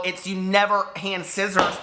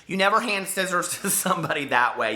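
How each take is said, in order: First: Slow, with NEVER stressed; emphatic correction. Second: Said in the usual way. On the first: Shown as a demonstration. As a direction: lean on "never" as you correct yourself.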